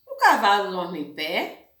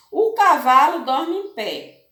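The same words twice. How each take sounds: First: "O cavalo dorme em pé?" lower start, rising at the end on pé; question intonation. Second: "O cavalo dorme em pé." read as a firm statement with a falling end; statement intonation. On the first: Teacher to pupils, showing a question tune. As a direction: ask it, pitch climbing on pé. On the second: Teacher to pupils, showing a plain statement tune. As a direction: state it flatly, ending down on pé. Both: Shown as a demonstration. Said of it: "a prof fez a mesma frase com entonações diferentes".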